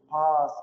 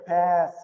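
First: It is said with the later British-style vowel. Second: It is said with the older American-style vowel. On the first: This is the newer form that arose in England. "которое произошло уже, собственно, только в английской, британской Британии" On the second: This is the older form taken to America. "это более старое произношение"

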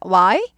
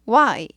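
First: The pitch rises at the end. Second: The pitch falls at the end. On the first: The speaker calls it wrong. "아니고" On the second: The speaker calls it right. "이 끝이 내려갑니다"

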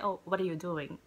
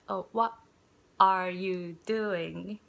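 First: The words are reduced and run together. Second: Each word is said clearly and separately. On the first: This is how people really speak in the States. The speaker calls it right. "People say" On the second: This is the careful form learned from writing. The speaker calls it wrong. "the clear speech ... But no one says like that in the States"

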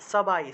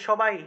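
First: The first sound is a clear 's' sound. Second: The first sound is a 'sh' sound. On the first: This is the Sanskrit way of saying it. "সংস্কৃতে কীভাবে বলবো?" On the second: This is the everyday Bengali way of saying it. "আমরা বলি না যে সবাই"

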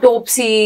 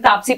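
First: The first vowel is an o sound. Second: The first vowel is a long a. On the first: The speaker calls it wrong. "Pronounce भी गलत करते हैं" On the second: The speaker calls it right. "मैं खुद ही खड़े होकर बोलती थी"

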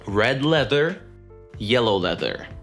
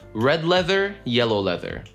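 First: The phrase is said at a slow pace. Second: The phrase is said at a quicker pace.

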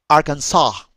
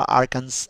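First: The final S is silent. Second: The final S is pronounced. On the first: The speaker calls it right. "la S del final no se pronuncia" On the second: The speaker calls it wrong.

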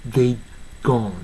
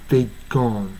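No difference in how they are said.

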